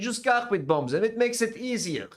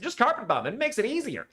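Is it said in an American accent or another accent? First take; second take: another; American. First: It is said without an American accent. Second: It is said with an American accent.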